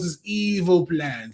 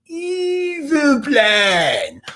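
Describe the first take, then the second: First: Said in the usual way. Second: High, drawn-out, hammed-up "evil plan"; over-the-top cartoon evil cry; mock villain. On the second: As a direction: stretch it out with theatrical menace. Mock-villain repeat of the phrase.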